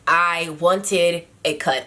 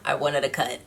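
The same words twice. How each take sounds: First: "wanted" slow and drawn out, falling; stress on wanted. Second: "wanted" quick, lower and softer; "wanted" tossed off, quieter and lower; light stress on wanted. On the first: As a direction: lean hard on "wanted". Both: Shown as a demonstration. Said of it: "I shouldn't say it like that".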